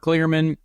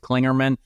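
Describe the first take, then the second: First: No n sound comes before the g. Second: An n sound comes before the g. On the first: The speaker calls it right. "There is no N before the G" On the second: The speaker calls it wrong. "I pronounced it like Dale Earnhardt Junior Our boss pronounced it"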